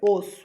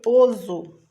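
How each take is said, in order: First: The middle consonant is a hissing s sound. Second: The middle consonant is a buzzing z sound. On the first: The speaker calls it right. "quero osso" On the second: The speaker calls it wrong. "ele tem som de Z"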